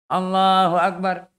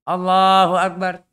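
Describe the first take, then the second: The two takes are said the same way.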